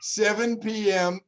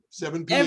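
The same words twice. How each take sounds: First: It is said at a slow pace. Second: It is said at a quick pace.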